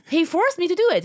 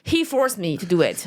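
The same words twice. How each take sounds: First: "He forced me to do it" pitched high for emphasis; emphatic repeat. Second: Said in the usual way. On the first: Real, not acted. Comic stressing how her mentor pushed her, emphatic. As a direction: insist on "He forced me to do it", voice jumping up.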